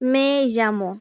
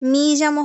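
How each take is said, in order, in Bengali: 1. প্রথম শব্দে 'e' স্বরধ্বনি আছে। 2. প্রথম শব্দে 'ee' স্বরধ্বনি আছে। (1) "যেমন মে জামো" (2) "মি জামো হবে না কিন্তু"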